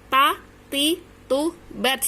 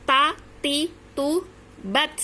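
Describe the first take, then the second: Both takes have the same delivery.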